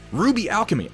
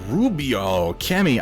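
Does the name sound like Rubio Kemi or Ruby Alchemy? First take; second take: Ruby Alchemy; Rubio Kemi. First: The name is split as ruby alchemy. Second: The name is split as rubio kemi. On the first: The speaker calls it right. "that makes so much more sense" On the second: The speaker calls it wrong. "I can't be saying that right"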